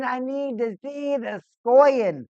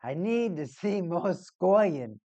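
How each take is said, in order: First: Louder, higher, insisting on scoring; plain fan shout, no accent; loud demand. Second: Mock Boston accent, slow and drawn out; a hint of a Boston accent; Boston coach voice. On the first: Real, not acted. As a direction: yell for goals like a fan. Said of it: "I need to see some more scoring". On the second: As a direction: do a Boston coach demanding goals. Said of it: "just imagine a Boston coach".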